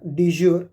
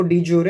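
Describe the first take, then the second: First: "de jure" said dee-ZHOOR; two-syllable "de jure", silent final e; alternative pronunciation. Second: "de jure" said dee-JOR-ay; three-syllable pronunciation. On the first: Lecturer repeats the other accepted form, "de jure" as dee-ZHOOR. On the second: Lecturer recaps the answer for students, "de jure" with final vowel. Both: Shown as a demonstration. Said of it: "या कुछ लोग इसको de jure भी कहते हैं".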